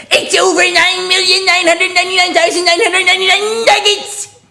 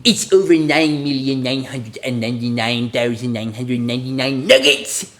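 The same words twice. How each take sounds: First: Screamed cartoon voice, very high and loud; all-out high-pitched character scream; Nugget. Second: Put-on cartoon voice at ordinary volume; character voice held back from a scream, rising on the last word; unscreamed cartoon catchphrase; Nugget. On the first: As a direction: shriek the whole catchphrase at the top of the range. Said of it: "I think I'm supposed to scream that". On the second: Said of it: "say in Nugget's voice". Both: Shown as a demonstration.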